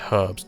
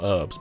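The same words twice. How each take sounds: First: The h at the start is pronounced. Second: The h at the start is silent. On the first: This is the English way of saying it. The speaker calls it right. "there's a H there and it's not silent in English" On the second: This is the American way of saying it. The speaker calls it wrong. "It is in American"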